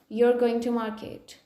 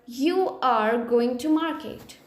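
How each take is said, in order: First: You are is contracted into one syllable. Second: You are is said as two full words.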